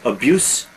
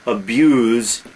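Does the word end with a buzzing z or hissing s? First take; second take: hissing s; buzzing z. First: The word ends with a hissing s sound. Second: The word ends with a buzzing z sound. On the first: It names the harm itself. "abuse, noun" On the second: It names the act of harming. "abuse, verb"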